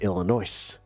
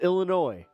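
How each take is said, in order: First: The final S is pronounced. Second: The final S is silent. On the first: The speaker calls it wrong. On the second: The speaker calls it right.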